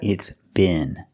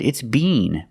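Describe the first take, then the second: First: It is said with an American short vowel. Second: It is said with a British long vowel. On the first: "if you're in America" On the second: "If you're in England"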